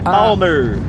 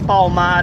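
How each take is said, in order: First: The name ends with an 'er' sound. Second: The name ends with an 'ar' sound. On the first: The speaker calls it right. "É Palmer" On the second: The speaker calls it wrong. "Você falou Palmar aí"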